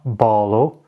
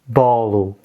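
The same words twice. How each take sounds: First: The word ends with an O sound. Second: The word ends with a U sound. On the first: The speaker calls it wrong. "So it's not bolo" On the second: The speaker calls it right. "when an O is at the end of a sentence, it generally becomes a U"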